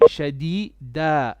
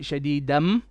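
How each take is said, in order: First: The word ends on a plain open vowel. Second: The word ends with an added m sound. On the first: The speaker calls it right. "it will be shadida if you pause" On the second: The speaker calls it wrong. "You cannot say shadidam"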